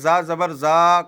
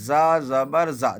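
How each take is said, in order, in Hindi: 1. अंतिम स्वर लंबा खींचा जाता है। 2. अंतिम स्वर छोटा रखा जाता है। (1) "अगर मैं ... कहूँगा तो फिर सही नहीं होगा" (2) "देखो मैं खींच नहीं रहा हूँ"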